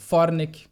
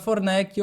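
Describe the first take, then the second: First: The stress is on the first syllable. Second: The stress is on the second syllable. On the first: This is how it is said in the speaker's home region. "toda a primeira ah, sílaba dos sobrenomes é a sílaba tônica" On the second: This is how people in Porto Alegre say it. "aqui em Porto Alegre a gente sabe que não é dito assim"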